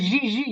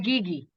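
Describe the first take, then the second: First: The name is said with a French pronunciation. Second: The name is said with an American pronunciation. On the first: "in French you will say Gigi" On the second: "America, you're gonna say Gigi"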